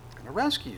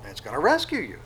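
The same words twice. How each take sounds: First: "rescue" said higher with a rising end; lifted repeat. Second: Said in the usual way. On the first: Shown as a demonstration. Preacher repeating the promise to the congregation, higher and rising.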